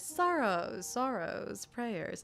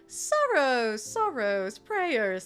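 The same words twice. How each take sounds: First: It is said in a plain voice. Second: It is said in Effie's put-on voice.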